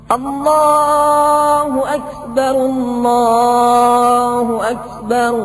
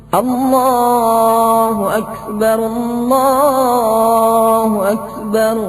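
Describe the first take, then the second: Both takes have the same delivery.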